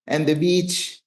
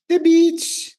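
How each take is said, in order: First: Said in the usual way. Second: "beach" jumps way up, delighted; excited high exclaim. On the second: Acted. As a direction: gush about the beach. Repeating the beach with emphasis.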